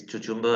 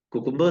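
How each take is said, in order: First: Cucumber said as "tuchumber", with a ch in the middle; joking mispronunciation. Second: Cucumber said with hard k sounds, "kyoo-kum-ber"; standard pronunciation. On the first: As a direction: keep saying cucumber as "tuchumber" as a joke. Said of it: "Cucumber sounds much nicer". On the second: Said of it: "sounds like it's pronounced by some African". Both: Shown as a demonstration.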